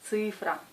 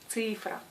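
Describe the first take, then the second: The two takes are said the same way.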